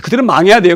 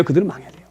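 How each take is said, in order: First: Said in the usual way. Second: Much softer, lower repeat of 그들은 망해야 돼요; quiet echo. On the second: Retold or imitated. Jonah repeating his wish to himself, softly. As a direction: drop to a murmur on 그들은 망해야 돼요.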